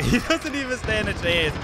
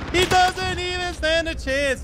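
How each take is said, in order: First: Laughing, higher-pitched gloat; lifted, gleeful disbelief; amused gloating. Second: Drawn-out high squeal of glee; high-pitched gloating. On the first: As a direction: crow it with a laugh. First gleeful take before squealed repeat. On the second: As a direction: crow it slowly in a sustained falsetto. Gloating repeat over a helpless opponent. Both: Real, not acted.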